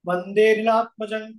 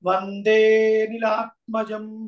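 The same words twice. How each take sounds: First: The vowel in 'ni' is held long. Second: The vowel in 'de' is held long. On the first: The speaker calls it wrong. "కాకుండా" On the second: The speaker calls it right. "ఆ ముందక్షరాన్ని ఒక లిప్తకాలం దీర్ఘం పలకాలి"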